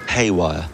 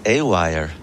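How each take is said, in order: First: The word starts with an h sound. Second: The word starts with no h sound. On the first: "how do you say it?" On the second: "I just like the way you say it"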